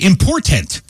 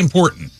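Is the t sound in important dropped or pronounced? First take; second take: pronounced; dropped. First: The middle t sound is clearly pronounced. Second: The middle t sound is dropped. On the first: The speaker calls it wrong. "you don't right. say important" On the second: The speaker calls it right. "we all run together. ... we say important"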